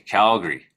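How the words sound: The first vowel is drawn out long. The speaker is from Alberta.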